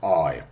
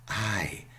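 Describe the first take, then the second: First: It is said in a Cockney accent. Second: It is said in a standard, non-Cockney accent. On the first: The speaker calls it wrong. "and not I, I. That would be Cockney" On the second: The speaker calls it right. "so it's I"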